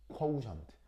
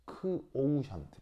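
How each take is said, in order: First: "코우션트" with K blended into "오우". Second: "크오우션트" slowly, "크" apart from "오우". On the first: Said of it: "그래서 발음할 때 뭐라고?". ("코우션트"를 이어 붙여 발음) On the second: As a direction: sound out "크-오우션트" slowly. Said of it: "크하고 W가 이렇게 발음이 분리". ("크오우션트"를 천천히 나눠 발음) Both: Shown as a demonstration.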